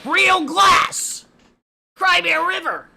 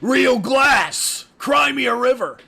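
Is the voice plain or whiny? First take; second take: whiny; plain. First: It is said in a whiny voice. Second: It is said in a plain voice.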